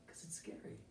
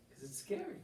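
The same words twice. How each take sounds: First: Hushed whisper, almost no voice. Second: Said in the usual way. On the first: Acted. Teacher whispering to students why change is scary. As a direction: breathe it like a secret fear.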